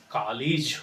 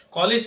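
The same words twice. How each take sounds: First: "कॉलेज" as "kaa-lij"; correct pronunciation. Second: "कॉलेज" as "caw-lej"; rounded vowel and e in "कॉलेज"; wrong pronunciation. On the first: Teacher correcting learners, "कॉलेज" as "kaa-lij". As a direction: open vowel, short i in "कॉलेज". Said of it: "हम लोग use करेंगे". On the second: Teacher showing the error, "कॉलेज" as "caw-lej". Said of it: "जो बिल्कुल गलत है". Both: Shown as a demonstration.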